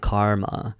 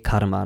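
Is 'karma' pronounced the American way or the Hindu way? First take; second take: American; Hindu. First: It is pronounced in an American English manner. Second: It is pronounced in a Hindu, South Asian manner. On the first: The speaker calls it wrong. "the Western whitewashed way of saying karma, you know, the American way" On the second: The speaker calls it right.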